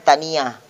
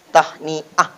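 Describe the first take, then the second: First: The middle h sound is left out. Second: The middle h sound is clearly pronounced. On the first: The speaker calls it wrong. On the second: The speaker calls it right.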